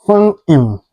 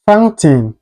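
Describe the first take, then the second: First: FOUNTAIN with the T swallowed, "foun'n"; dropped T. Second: FOUNTAIN with a clear "tain" ending; T fully pronounced. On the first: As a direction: say "fountain" American style, without a released T. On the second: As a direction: say "fountain" sounding the T. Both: Shown as a demonstration. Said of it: "is pronounced like".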